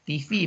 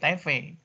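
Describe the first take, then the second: First: The letters get their English names. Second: The letters get their Indonesian names. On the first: "kalau disingkat secara Inggris" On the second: "kalau di eja secara Indonesia"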